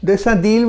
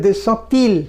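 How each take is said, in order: First: দেশা দিল with a voiced d in দিল; D sound. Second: দেশা তিল with a t in তিল; T-sound liaison. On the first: Teacher shows the mistaken liaison, দিল said with a d. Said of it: "আমি উচ্চারণ করছি কি". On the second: Teacher shows correct French liaison, তিল said with a t. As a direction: link into তিল with an unvoiced t instead of d. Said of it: "ডিটা কিন্তু টি sound হয়ে যাবে". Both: Shown as a demonstration.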